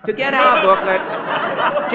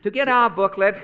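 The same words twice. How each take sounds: First: To get our booklet, said slowly and louder; slow, louder restart. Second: Said in the usual way. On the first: Shown as a demonstration. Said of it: "restart, slower and louder". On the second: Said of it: "restarts line after laughing".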